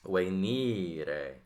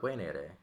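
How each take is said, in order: First: The middle vowel is a long I sound. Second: The middle vowel is a short E sound. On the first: It marks the verb as fourth conjugation. The speaker calls it right. "that strong, long I sound" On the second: It would mark the verb as third conjugation. The speaker calls it wrong. "not wainere"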